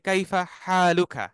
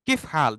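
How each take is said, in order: First: It is said in full formal classical form. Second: It is said in a shortened colloquial form. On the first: "আমরা যখন কথা বলি তখন আমরা বলি" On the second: "স্পোকেনে যাই অনেক সময় আপনি শুনবেন"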